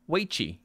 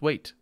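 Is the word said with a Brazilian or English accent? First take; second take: Brazilian; English. First: It is said with a Brazilian accent. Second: It is said with an English accent.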